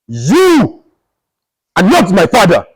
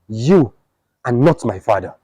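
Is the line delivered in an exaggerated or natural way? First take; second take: exaggerated; natural. First: It is delivered in a loud, exaggerated, theatrical way. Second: It is delivered in a calm, natural, realistic way.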